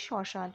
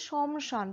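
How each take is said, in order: First: শ্মশান as "sho-shan", no m; silent ম. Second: শমশান with the ম sounded, "shom-shan"; as written. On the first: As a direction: drop the ম when saying শ্মশান. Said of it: "উচ্চারণ করার সময় বলছি কি". (শ্মশান, ম উহ্য রেখে "শশান") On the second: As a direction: voice the m in শমশান as spelt. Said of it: "আমরা লিখছি শমশান". (শমশান, লেখা অনুযায়ী ম উচ্চারণ করে) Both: Shown as a demonstration.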